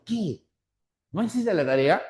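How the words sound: A clear pause follows the word que. Astonishment that the homework was not done. "la pausa lo marca muy bien"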